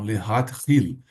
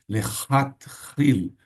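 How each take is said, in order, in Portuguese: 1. O primeiro som de h é suave e aspirado. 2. O primeiro som de h é áspero e gutural. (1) "aqui é um re, hil, aqui é um het" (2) "você não vai dizer lehat-hil"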